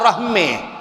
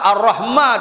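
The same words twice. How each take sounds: First: The vowel after m leans toward e. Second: The vowel after m is a plain open a. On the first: The speaker calls it wrong. "tak ada Ar-Rahman" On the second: The speaker calls it right. "tetap Ar-Rahman"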